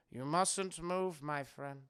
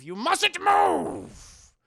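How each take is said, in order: First: Slow, soft, low warning; quietly creepy friendly caution; sinister reassurance. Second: Slow, high, loud warning; imitating a villain's sudden outburst; stern command. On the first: Retold or imitated. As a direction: drop to a hushed, measured menace. Same warning repeated softly. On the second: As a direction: bellow it, stretching out "move". Howard forbids movement, then softens.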